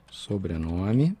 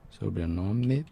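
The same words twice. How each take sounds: The two takes are said the same way.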